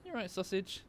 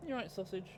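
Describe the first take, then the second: First: High pet voice. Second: Soft high coo to a dog; high pet voice. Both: Real, not acted. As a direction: ask sweetly, pitched up. Checking on the dog.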